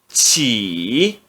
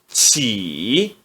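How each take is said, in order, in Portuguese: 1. A sílaba é pronunciada no terceiro tom. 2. A sílaba é pronunciada no terceiro tom.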